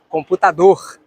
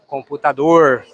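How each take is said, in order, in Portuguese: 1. Fala-se com sotaque do Rio de Janeiro. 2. Fala-se com sotaque de São Paulo. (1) "computador no Rio de Janeiro" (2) "Em São Paulo"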